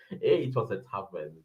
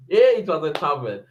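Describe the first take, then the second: First: Much lower, much softer aside. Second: Said in the usual way. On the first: Shown as a demonstration. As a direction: mutter it to yourself.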